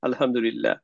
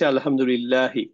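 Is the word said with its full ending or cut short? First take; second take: cut short; full ending. First: The word stops short without the final -i. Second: The word ends with the full -i ending. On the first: The speaker stops at the end of the phrase. "কেউ আমাদেরকে জিজ্ঞেস করলো কেমন আছেন ভাই" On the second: The word is read with its grammatical case ending. "এখানে কিন্তু শেষ হয়েছে হচ্ছে আলহামদুলিল্লাহি"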